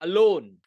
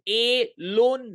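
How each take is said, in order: First: The first vowel is a neutral schwa sound. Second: The first vowel is a full 'ay' sound. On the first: The speaker calls it right. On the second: The speaker calls it wrong.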